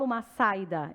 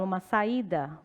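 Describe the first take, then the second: First: The a and i merge into one syllable. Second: The a and i are two separate syllables. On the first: The speaker calls it wrong. "Eu não falo" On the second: The speaker calls it right. "vogal com vogal"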